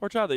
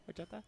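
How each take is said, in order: First: The word is said in a full, confident voice. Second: The word is said in a small, shrinking voice. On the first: "You don't say like horchata" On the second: "as if you're smaller ... like you shrink a little bit"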